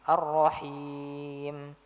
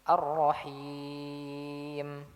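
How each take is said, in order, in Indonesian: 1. Vokal panjangnya dibaca lebih pendek. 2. Vokal panjangnya dibaca enam harakat.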